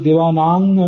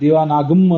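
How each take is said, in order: First: The word ends in a velar ng sound. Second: The word ends in a full gam syllable. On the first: The speaker calls it right. "ದೇವಾನಾಂಗ್ ಅಂತ ಓದಬೇಕು" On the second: The speaker calls it wrong. "ಗಮ್ ಅಂತ ಓದಬಾರ್ದು"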